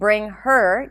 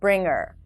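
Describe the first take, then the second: First: The H sound in her is pronounced. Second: The H sound in her is dropped. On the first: "Instead of saying" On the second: "you can say"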